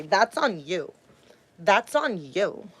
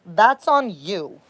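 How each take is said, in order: First: A hint of a dismissive abuser, softer; mock abuser brushing her off. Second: Said in the usual way. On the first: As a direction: throw the blame back, mockingly. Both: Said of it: "That's what all my abusers would say".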